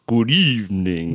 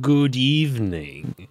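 First: Slow, mild Transylvanian greeting; a light vampire-count drawl; Romanian accent. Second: Slow, lightly hammed vampire greeting; Dracula voice. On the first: Pretend. Host copying co-host's greeting, mild Romanian accent. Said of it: "that sounds like Transylvania". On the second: Podcast co-host greeting in a mild Dracula voice. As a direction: draw out the greeting like a count. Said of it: "Uh, Dracula?".

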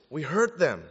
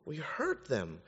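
First: Said in the usual way. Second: Hushed repetition. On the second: Real, not acted. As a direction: drop to a soft, grave near-murmur. Repeats warning much more softly.

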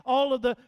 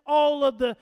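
The two takes are said the same way.

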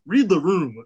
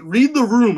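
First: Said in the usual way. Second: Emphatic command. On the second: Real, not acted. Host telling Xavier off, loud emphatic command. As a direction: read the room, higher and louder.

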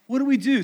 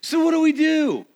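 First: Said in the usual way. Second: High, loud stress on we; emphatic question. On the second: Real, not acted. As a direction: call it out to the crowd, leaning on we. Preacher's rhetorical question.

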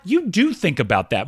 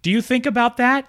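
First: "do" stressed in an emphatic, high-pitched statement. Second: High-pitched question on "Do you think about that". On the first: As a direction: hit the word "do" to answer your own question. Answers own question with emphasis. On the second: Question, then emphatic answer to it. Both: Real, not acted.

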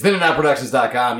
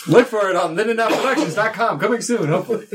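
First: Said in the usual way. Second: Upbeat promo read, pitched up; website plug. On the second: Shown as a demonstration. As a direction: announce it like a radio ad. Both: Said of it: "We're plugging that website like crazy".

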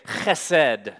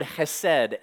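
First: "chesed" with a strong throaty ch; Hebrew pronunciation. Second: Said in the usual way. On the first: Shown as a demonstration. Preacher showing good Hebrew, "chesed" with a guttural ch. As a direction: say "chesed" slowly, scraping the first sound in the throat. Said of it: "If I was a really good Hebrew, I would say". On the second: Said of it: "If I was a really good Hebrew".

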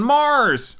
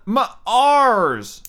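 First: Said in the usual way. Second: "Mars" broken into "muh-ARS", second part high and drawn out; split Martian pronunciation. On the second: Shown as a demonstration. Host mocking what Martians call their planet, "Mars" split as muh-ARS. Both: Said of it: "or as they call it".

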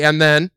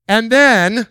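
First: Said in the usual way. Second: Rising, louder and then; building suspense; excited and then. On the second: Retold or imitated. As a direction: toss it up eagerly. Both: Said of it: "somebody say".

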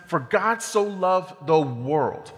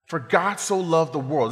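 First: For God so loved the world, each word drawn out slowly with weight on so; slow the line right down and lean on so; slow emphatic scripture line. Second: Said in the usual way. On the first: Shown as a demonstration. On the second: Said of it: "So we'll start with that first line".

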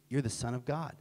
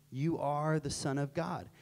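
First: Said in the usual way. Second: "are" drawn out slowly; slow it down and lean on "are"; stress on ARE. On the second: Retold or imitated. Peter's answer restated with emphasis.

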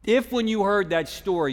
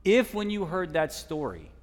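First: Second take, higher and louder; louder repetition. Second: First take, held back; building repetition. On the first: Preacher to congregation, repeating it louder. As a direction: punch if when you heard that story. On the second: Preacher to congregation, building repetition. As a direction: ease into if when you heard that story. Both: Real, not acted.

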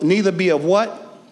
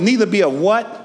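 First: Said in the usual way. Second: Louder prompt. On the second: Shown as a demonstration. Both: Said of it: "say it louder".

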